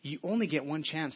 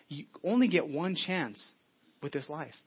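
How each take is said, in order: First: Said in the usual way. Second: Slow, every word weighed, "only" leaning in; slow emphatic repeat. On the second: Real, not acted. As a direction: drive the point home slowly.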